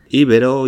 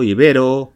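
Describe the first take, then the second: First: Íbero with stress on the first syllable, Í-be-ro. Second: Ibero with stress on the middle syllable, i-BE-ro; unaccented ibero. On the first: Teacher contrasting the two forms, íbero stressed on Í. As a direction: hit the opening Í of íbero. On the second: Teacher contrasting the two forms, ibero stressed on BE. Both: Shown as a demonstration. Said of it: "con tilde o sin ella".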